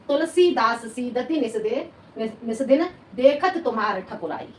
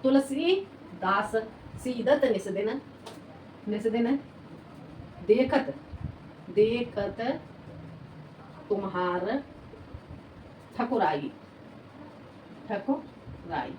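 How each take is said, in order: First: Said in the usual way. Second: Slow, word by word, for writing down; spaced-out dictation with pauses between words. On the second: Shown as a demonstration. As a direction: dictate each word slowly so students can copy it. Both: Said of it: "ऐसे लिख लो".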